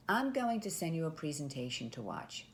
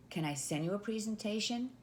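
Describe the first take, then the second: First: Falling, matter-of-fact tone, stress on "I'm"; a composed, assured salesperson telling the next step; confident assumptive statement. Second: Rising, hopeful ask on "presentation?"; a timid closed yes-or-no question; tentative permission ask. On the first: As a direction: state it like it's already decided. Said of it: "you're gonna say". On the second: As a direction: ask it like you need their permission. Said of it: "instead of, for example". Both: Shown as a demonstration.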